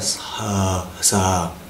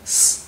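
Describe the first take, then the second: First: The s is followed by a short vowel. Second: The s is a bare hiss with no vowel. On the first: The speaker calls it wrong. "Nó không phải là sờ sờ" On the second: The speaker calls it right. "bỏ cái cái khúc ờ đó của chữ sờ của mình, nó ra cái khúc đầu thôi"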